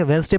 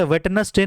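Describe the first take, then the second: First: वेडनेसडे as wenz-day, first D dropped; silent D. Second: वेडनेसडे as wed-nes-day, D sounded; spelling reading of वेडनेसडे, three syllables; silent D wrongly sounded. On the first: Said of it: "पढ़ेंगे". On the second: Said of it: "वेडनेसडे में डी silent होता है". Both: Shown as a demonstration.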